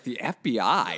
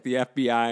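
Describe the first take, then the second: First: Retold disbelief, voice lifting on the question; incredulous question. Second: Mildly mimicked firm statement; flat insistence. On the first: Recalling his date's threat, asks it back in mild disbelief. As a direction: echo her words back as if they can't be real. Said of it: "I was just like". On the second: His date answers his question with a lightly mimicked firm statement. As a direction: she repeats it as settled fact. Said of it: "And she was like".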